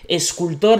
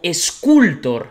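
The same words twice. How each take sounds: First: The stress is on the last syllable. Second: The stress is on the middle syllable.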